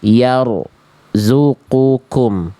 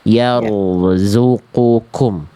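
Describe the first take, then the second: First: The r sound is cut off before zu. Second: The r sound flows smoothly into zu. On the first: The speaker calls it wrong. "Contoh tadi Bunda baca begini" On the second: The speaker calls it right. "nggak boleh putus"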